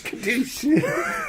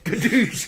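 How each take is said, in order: First: Second boom shouted very high while laughing; shouted gun sound. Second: Gun sound. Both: Pretend. Imitating a shotgun blast.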